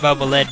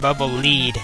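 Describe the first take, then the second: First: Lead has a short vowel, unlike leader. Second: Lead has a long ee vowel, like leader. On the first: "I pronounce it Bubble Lead because I think that, that sounds cooler" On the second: "supposed to be pronounced Bubble Lead, as in follow the leader"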